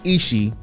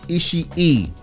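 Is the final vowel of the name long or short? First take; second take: short; long. First: The final vowel is short and single. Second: The final vowel is drawn out as two. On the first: The speaker calls it wrong. "Not Ishii" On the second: The speaker calls it right. "You pronounce both of them on the end"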